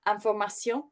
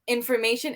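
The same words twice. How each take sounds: First: The word has a French pronunciation. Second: The word has an English pronunciation.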